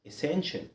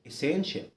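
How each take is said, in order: No difference in how they are said.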